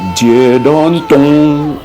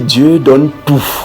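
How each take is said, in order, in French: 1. Le dernier mot se termine par une voyelle nasale. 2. Le dernier mot se termine par une voyelle orale. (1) "tu dis Dieu donne ton" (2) "quand tu veux tout simplement dire Dieu donne tout"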